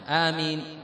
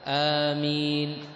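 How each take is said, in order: First: The first vowel is short, with a single m. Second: The first vowel is long, with a single m. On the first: "بتخفيف الميم وبالقصر" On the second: "وإنما بمقدار حركتين"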